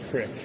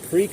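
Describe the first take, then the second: First: The vowel is a short 'i' sound. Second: The vowel is a long 'ee' sound. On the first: This form may be used down south. "Maybe crick if you're down south" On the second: This is the form the speaker grew up with. "I always grew up with creek"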